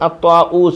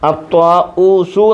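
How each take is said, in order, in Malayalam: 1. വാക്ക് പെട്ടെന്ന്, സ്വരമില്ലാത്ത വ്യഞ്ജനത്തിൽ അവസാനിക്കുന്നു. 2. വാക്ക് ഹ്രസ്വ സ്വരത്തിലാണ് അവസാനിക്കുന്നത്. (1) "ഫുൾ സ്റ്റോപ്പ് ആയതുകൊണ്ട് സുക്കൂൻ കൊടുത്ത് നിർത്തി" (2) "അത്വാഊസു എന്നാണ് പറയേണ്ടത്"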